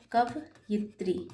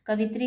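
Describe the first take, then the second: First: कवयित्री said slowly with a clear "य" in the middle; correct form said slowly. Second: Said in the usual way. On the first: Shown as a demonstration. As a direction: stretch out कवयित्री syllable by syllable. (कवयित्री को धीरे से, य साफ़ बोलते हुए) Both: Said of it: "कवित्री इस तरीके से नहीं लिखा जाता है".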